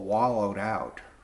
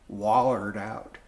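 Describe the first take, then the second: First: It is said in a standard pronunciation. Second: It is said in a North Carolina pronunciation.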